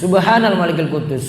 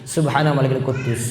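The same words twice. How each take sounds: First: It is said louder than the soft version. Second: It is said softly and quietly. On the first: "yang kedua itu lebih keras" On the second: "nada pertama itu lebih lirik"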